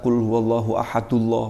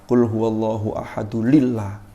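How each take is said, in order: First: Ahad runs straight into Allah with no added sound. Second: Ahad is linked to Allah with an l sound. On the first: "wah malah keliru juga" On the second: "Ada orang yang keliru"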